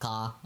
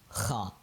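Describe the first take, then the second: First: It starts with a plain k stop. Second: It starts with a raspy friction in the throat. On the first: The speaker calls it wrong. "don't go like ka or something weird like that" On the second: The speaker calls it right. "like clearing out phlegm"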